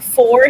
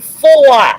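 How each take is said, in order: First: It is said with a plain American accent. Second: It is said with a Boston accent. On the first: "instead of saying four" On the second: "he would say four. ... it sounded like he had a Boston, Massachusetts a- accent"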